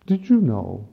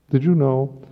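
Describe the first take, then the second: First: Said in the usual way. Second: Did you know, louder and higher, pressing; emphatic question. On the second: Shown as a demonstration. Priest challenging the congregation, emphatic.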